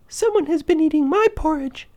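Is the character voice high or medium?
high. A tiny, high voice says it. The smallest bear is speaking. "Baby Bear cried out in his tiny little voice"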